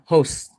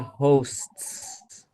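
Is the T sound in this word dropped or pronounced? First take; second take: dropped; pronounced. First: It is said quickly with the T dropped. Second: It is said slowly with a clear T sound. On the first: "when I say it quickly, I only say the S sound" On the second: "if I say it perfectly clearly"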